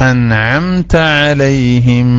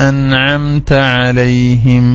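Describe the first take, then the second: Both takes have the same delivery.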